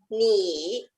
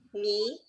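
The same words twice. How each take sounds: First: The syllable is said with a falling-rising tone. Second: The syllable is said with a rising tone. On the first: "你 third tone" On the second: "the first one we say 你 that's the second tone"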